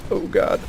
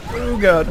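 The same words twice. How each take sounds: First: Breathy whispered oh God; whispered dismay. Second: Much higher, anguished oh God; high groan of dismay. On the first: Realizing the recording is gone, whispered dread. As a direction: hush it out in dread. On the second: Realizing the recording is gone, higher despairing cry. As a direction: let it jump up in despair. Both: Real, not acted.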